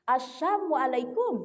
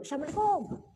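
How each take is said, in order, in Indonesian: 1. Bunyi desis itu diucapkan sebagai 'sh'. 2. Bunyi desis itu diucapkan sebagai 's'. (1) "Bukan assalam pakai sin tapi pakai sya" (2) "kalau mengucapkan salam yang benar jangan asal lewat"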